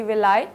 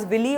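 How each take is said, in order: First: Villi said as vil-EYE; preferred pronunciation. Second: Villi said as VIL-ee; alternative pronunciation. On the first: Teacher giving the appropriate pronunciation, villi as vil-EYE. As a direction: end villi on an "eye" sound. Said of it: "the appropriate pronunciation is the villi". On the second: Teacher showing students another way to say it, villi as VIL-ee. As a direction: end villi on an "ee" sound. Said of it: "Sometimes you may pronounce it as villi also". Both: Shown as a demonstration.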